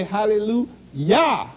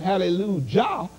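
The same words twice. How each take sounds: First: "hallelujah" ending in a slow "yah"; Y-sound pronunciation. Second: "hallelujah" ending in "jah", J as in judge; J-sound pronunciation. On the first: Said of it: "we say hallelujah". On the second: Preacher contrasting church usage, "hallelujah" said with hard J. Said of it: "The J has a J sound". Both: Shown as a demonstration.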